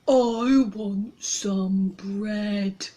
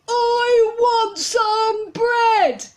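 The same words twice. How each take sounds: First: It is said at a normal, quieter volume. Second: It is shouted loudly.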